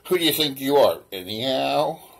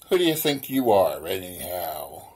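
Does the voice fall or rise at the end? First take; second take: rise; fall. First: The voice rises at the end. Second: The voice falls at the end.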